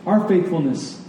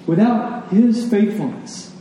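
First: Said in the usual way. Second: "his" lifted high and drawn out; slow down and punch "his" above "faithfulness"; heavy accent on "his"; stress on HIS. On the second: Shown as a demonstration. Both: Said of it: "the accent in this passage is on".

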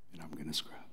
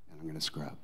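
First: Breathy whispered vow, much lower; whispered Jesus promise. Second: Hushed Jesus resolve; low hushed vow. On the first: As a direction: drop to a whisper on the repeat. Repeat as a whisper. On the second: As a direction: lower and softer, a quiet promise. Jesus voiced, repeated softer. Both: Acted.

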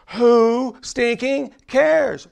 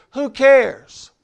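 First: Slow "Who stinking cares?" with weight on "stinking"; emphatic stinking. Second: Said in the usual way. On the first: Shown as a demonstration. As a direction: lean hard on "stinking", draw out "Who stinking cares?". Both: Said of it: "There's a difference between who cares and who stinking cares".

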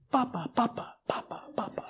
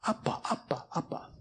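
First: Hushed, whispery imitation of babbling "Papa"; babbling baby. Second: Put-on hushed baby babble, "Appa" starting on the vowel; shifted syllable emphasis. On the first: Six-month-old reaching out for a parent, imitated soft babble. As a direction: softly repeat "Papa" like an infant. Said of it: "he would reach out for me and just say". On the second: Six-month-old calling a parent, imitated babble with shifted emphasis. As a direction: whisper "Appa" repeatedly, emphasis moved to the other syllable. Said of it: "the emphasis on the different syllable".

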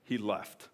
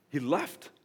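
First: Said in the usual way. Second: He left with a rising, lingering left; emphatic repeat. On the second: Shown as a demonstration. Preacher repeats Paul's exit for weight. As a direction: lean on left, let it hang. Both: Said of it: "I can say it in two".

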